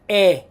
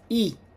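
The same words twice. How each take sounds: First: The letter is said with an Italian pronunciation. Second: The letter is said with an English pronunciation. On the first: "but in Italian is not E, it is E" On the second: "in English we pronounce this letter E"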